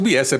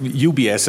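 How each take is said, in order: First: The letters are spelled out Italian-style. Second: The letters are spelled out American-style.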